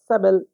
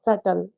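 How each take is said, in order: First: A b sound is pronounced in the middle. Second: No b sound; it sounds like suttle. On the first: The speaker calls it wrong. "सबल नहीं पढ़ते हैं" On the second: The speaker calls it right. "सही pronunciation कहेंगे सटल"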